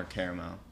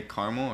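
First: "caramel" said as CARE-uh-mel; "caramel" with an eh and a clear middle vowel; three-syllable pronunciation. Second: "caramel" said as CAR-mul; "caramel" with an ah and no middle vowel; two-syllable pronunciation. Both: Shown as a demonstration. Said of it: "Do you say caramel or caramel?".

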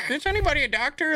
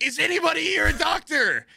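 First: High, fast put-on announcer; cabin announcement. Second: High mock shout to a crowd; urgent calling out. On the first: Crew asks first class for a doctor, cabin announcement. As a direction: imitate a stewardess on the intercom, pitched up. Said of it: "they have to give an announcement". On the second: Stewardess calls the cabin for a doctor, urgent shout. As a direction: imitate a desperate cry for help, pitched way up.

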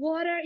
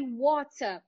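First: "Water" with an American tapped T; American accent. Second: "water" with a British crisp T; British accent. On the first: Teacher contrasting two accents for students, American pronunciation. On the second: Teacher contrasting two accents for students, British pronunciation. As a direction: say "water" the British way, true T and open ending. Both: Shown as a demonstration. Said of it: "ouve ali a britânica".

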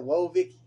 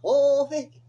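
First: A mild first go at Vicky's drawled whoa; half-hearted imitation, only a touch louder; mocking Vicky. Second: A big, much higher and louder mock whoa; mocking Vicky. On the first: Mocking how Vicky talks to his co-host, lightly. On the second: Topping off the rant about Vicky with a loud, high mock. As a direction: belt her catchphrase out in full mockery. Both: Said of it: "That's how she talk".

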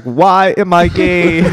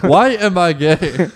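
First: Slow, drawn-out lament; slow wailing quote. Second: Slow, laughing repeat. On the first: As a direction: stretch it out slowly. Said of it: "He's on the ground like". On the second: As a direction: laugh through it slowly. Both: Retold or imitated.

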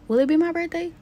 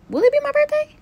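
First: Higher, playful question; teasing question. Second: Very high, louder squeal of a question. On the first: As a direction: ask it lightly, teasing yourself. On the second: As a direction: push it up into an excited squeak. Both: Pretend. Teasing herself about birthday.

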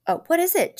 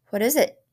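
First: Much higher, pleading, falling at the end; a wife's alarmed plea to her husband; frightened plea. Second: Said in the usual way. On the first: Acted. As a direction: beg to know, frightened now. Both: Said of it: "she asked".

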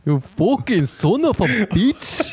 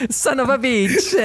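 First: Slow, higher mock Italian accent; hammy Italian insult. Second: Put-on much higher, slow Italian accent; hammy Italian gangster voice. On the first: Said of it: "schon fast ein Italiener". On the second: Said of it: "ins Italienisch switchen".

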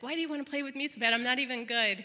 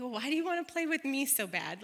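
First: Rushed, insistent retold question; fast, pleading stall. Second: Said in the usual way. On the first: Mom stalling her son, rushed pleading. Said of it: "I'm delaying the inevitable here". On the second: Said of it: "I was like".

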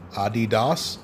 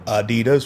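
First: Adidas as AH-dee-dahs; German pronunciation. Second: Adidas as uh-DEE-duhs; American pronunciation. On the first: Host explaining the brand name, Adidas said AH-dee-dahs. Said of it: "Adidas for the Americans". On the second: Host translating for Americans, Adidas said uh-DEE-duhs. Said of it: "for the Americans". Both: Shown as a demonstration.

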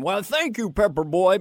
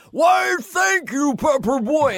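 First: Said in the usual way. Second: Put-on much higher, loud, slow shout of "Why, thank you, Pepper Boy"; Farley's shouted line. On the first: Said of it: "Farley had one line". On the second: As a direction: bellow it high and stretched, breaking into a laugh. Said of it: "Chris went".

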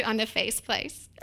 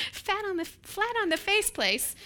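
First: Said in the usual way. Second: Amused repeat. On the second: Real, not acted. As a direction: relish the silly rhyme, laughing.

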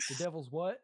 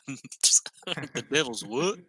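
First: A light southern twang on a question; lightly Southern-accented mock surprise. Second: Slowed, stretched Southern question; hammed-up Southern drawl, slow; southern accent. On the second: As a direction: imitate the Southern question, drawn out. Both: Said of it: "my voice went really southern".

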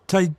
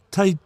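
No difference in how they are said.

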